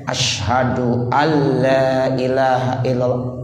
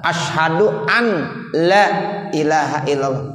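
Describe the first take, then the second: First: The n merges into the l sound. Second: The n is clearly pronounced before la. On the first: The speaker calls it right. "Jadi nunnya enggak ada lagi" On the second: The speaker calls it wrong. "Kalau nunnya kita baca ya itu enggak sah"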